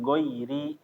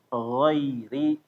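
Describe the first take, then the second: First: The first sound is a hard, stopped g. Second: The first sound is a flowing, throaty fricative. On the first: The speaker calls it wrong. "bukan goiri" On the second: The speaker calls it right. "ghairi bukan goiri"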